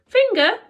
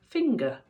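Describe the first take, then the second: First: High, loud baffled question; puzzled question. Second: Said in the usual way. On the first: Acted. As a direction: ask it like a confused friend. Bob asks puzzled.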